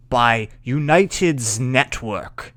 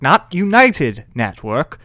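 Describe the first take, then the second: First: United's Network with the S stressed and drawn out slowly. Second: United Network said without the S, as the wrong version; slow United Network, no S on United; wrong name. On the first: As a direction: lean on the final S in United's. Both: Shown as a demonstration.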